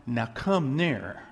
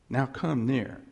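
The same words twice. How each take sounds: First: Now come near, drawn out slowly; slow invitation. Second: Said in the usual way. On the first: Shown as a demonstration. Pastor inviting the church closer, slow and deliberate.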